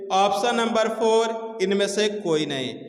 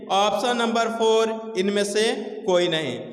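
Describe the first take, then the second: No difference in how they are said.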